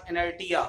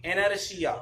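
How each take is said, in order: First: "inertia" said as e-ner-TI-ya; wrong pronunciation. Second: "inertia" said as e-ner-SHI-ya; correct pronunciation. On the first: Teacher showing what not to say, "inertia" mispronounced with hard t. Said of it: "but not inertia". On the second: Teacher repeating the right form, "inertia" pronounced with sh. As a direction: say "inertia" with sh in place of t. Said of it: "inertia पढ़ा जाता है". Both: Shown as a demonstration.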